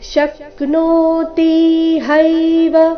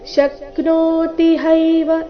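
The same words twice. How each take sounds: First: The vowels are held long and unhurried. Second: The vowels are shortened and rushed. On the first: The speaker calls it right. "ನೋ ತಿ ಹೈ ಮೂರು ಸಹ ದೀರ್ಘ ಬರಬೇಕು" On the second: The speaker calls it wrong. "ಈ ರೀತಿ ಯಾವುದೇ ಅಕ್ಷರವನ್ನ ರಸ್ವ ಮಾಡಬಾರ್ದು"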